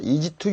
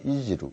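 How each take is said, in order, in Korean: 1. 'to'의 t는 분명하고 완전한 t예요. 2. 'to'의 t는 부드러운 플랩으로 약해져요. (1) "easy to use가 아니고" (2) "t가 모음사에 오니까"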